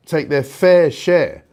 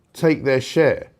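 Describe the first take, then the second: First: Slow, with fair hit hard and falling; stress on fair. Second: Said in the usual way. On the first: Shown as a demonstration. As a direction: lean on the word fair, stretching the phrase.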